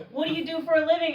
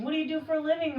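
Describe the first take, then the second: First: Mock eager question. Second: Mock eager question again. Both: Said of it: "is a top question".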